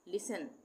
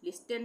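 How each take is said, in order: First: It is said without a t sound. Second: It is said with a t sound. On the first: The speaker calls it right. "टी silent हो जाएगा" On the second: The speaker calls it wrong. "लिस्टन नहीं बोलेंगे"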